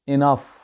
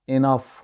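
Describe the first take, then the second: First: The first vowel sounds like 'ih'. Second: The first vowel sounds like 'ih'.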